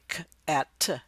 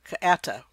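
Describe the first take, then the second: First: The sounds are said slowly and separately. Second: The sounds are said quickly, run together.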